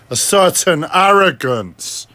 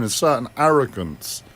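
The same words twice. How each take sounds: First: Slow, higher, heavily leaned-on arrogance; certain arrogance. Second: Said in the usual way. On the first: Shown as a demonstration. Mocking the tone of his own voice, arrogant. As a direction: drag it out with exaggerated arrogance. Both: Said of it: "speaking with a certain tone".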